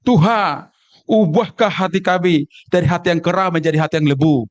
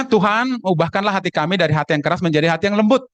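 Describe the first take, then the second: First: Put-on Sumatran accent with swallowed word endings; Sumatran dialect. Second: Said in the usual way. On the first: Church brother from Sumatra praying for a changed heart, Sumatran dialect. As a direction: pray in a Sumatran accent, kera and lebu unfinished. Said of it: "karena faktor dialek dari Sumatera".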